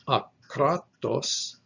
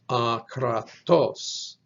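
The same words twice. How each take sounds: First: The stress is on the middle syllable. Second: The stress is on the last syllable. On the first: It means unmixed. "the emphasis shifts from the middle syllable to the last syllable" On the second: It means uncontrolled. "with the emphasis on the last syllable"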